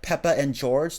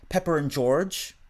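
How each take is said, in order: First: No R sound links the first two words. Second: An R sound links the first two words. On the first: "instead of saying something like Peppa and George" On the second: "they'll say Pepper and George, and this is called the intervocalic R"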